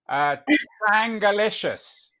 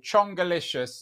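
First: The first vowel sounds like the 'a' in chat. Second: The first vowel sounds like the 'o' in chop. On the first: The speaker calls it wrong. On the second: The speaker calls it right.

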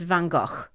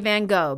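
First: The name is said with a Dutch-style pronunciation. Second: The name is said with an American pronunciation. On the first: The speaker calls it right. "The correct pronunciation is Van Gogh" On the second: The speaker calls it wrong. "only Americans say Van Gogh"

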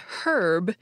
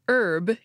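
First: It is said the British English way. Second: It is said the American English way. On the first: "herb in British English" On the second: "pronounced herb in American English"

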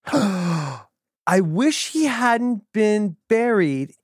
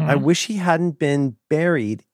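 First: It is said in the character's hard-to-follow speech. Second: It is said clearly in plain standard English. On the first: "I'm going to go from Larry to English" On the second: "I'm going to go from Larry to English"

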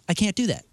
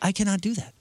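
First: The word cannot is contracted to can't. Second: The word cannot is said in full. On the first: It sounds ordinary and casual. "He would never say like" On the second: It sounds formal and old-fashioned. "he would say"

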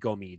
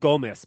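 First: The final S sound is left silent. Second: The final S sound is pronounced. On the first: The speaker calls it right. "It's got to be a silent S" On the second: The speaker calls it wrong. "I think that was just ugly American talking"

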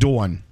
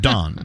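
First: It is said with a New York accent. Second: It is said with a Texas accent.

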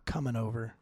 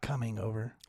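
First: The final G of coming is dropped. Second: The final G of coming is pronounced. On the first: "I drop all my G's" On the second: This is how the speaker would otherwise talk. "Not coming over"

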